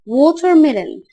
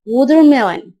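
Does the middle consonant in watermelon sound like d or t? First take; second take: t; d. First: The middle consonant is a clear t sound. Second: The middle consonant sounds like a d. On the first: "الأو مش بوضحها في النطق" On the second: "أسمع التي دي زي الدي كده ... ده النطق الامريكي"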